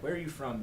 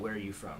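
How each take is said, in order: First: It is said in an emotional, engaged way. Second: It is said in a flat, neutral way.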